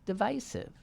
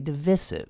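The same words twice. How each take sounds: First: The middle syllable sounds like 'vide' in divide. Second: The middle syllable does not sound like 'vide'. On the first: This follows the word it comes from. "But it's divide. Why wouldn't it be divisive? That's what I say" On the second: This is the common way people say it. "Most people seem to say divisive"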